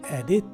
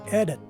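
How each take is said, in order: First: The second vowel is a full I sound. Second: The second vowel is a reduced schwa sound. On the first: The speaker calls it wrong. "as opposed to edit" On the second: The speaker calls it right. "this word is pronounced as edit"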